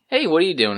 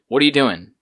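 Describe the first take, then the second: First: It is asked in a friendly, casual tone. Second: It is asked in an annoyed, irritated tone.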